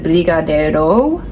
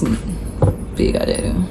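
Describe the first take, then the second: First: The final vowel is a clear 'oh' sound. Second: The final vowel is not a clear 'oh' sound. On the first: "Because it's spelled with an O. So it'd be like" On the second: "but it's"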